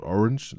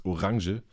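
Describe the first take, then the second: First: Said in the usual way. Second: Orange as German "o-RAHN-zhuh"; German pronunciation. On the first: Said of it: "not, not orange". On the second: Shown as a demonstration. Correcting the English word, Orange pronounced the German way. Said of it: "like, it's Orange".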